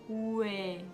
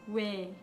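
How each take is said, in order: First: The vowel is drawn out slowly. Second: The vowel is said at normal speed. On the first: "Wenn man langsam spricht" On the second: "Wenn man normal spricht"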